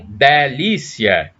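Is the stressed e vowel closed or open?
open. The stressed e is an open vowel. This is not how people in Brasília say it. "e não delícia"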